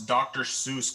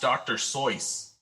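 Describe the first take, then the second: First: Seuss is said without rhyming with voice. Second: Seuss is said rhyming with voice. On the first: The speaker calls it wrong. "you don't pronounce Doctor Seuss correctly" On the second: The speaker calls it right. "It is actually pronounced Doctor Seuss. ... so like voice, but you just drop the V"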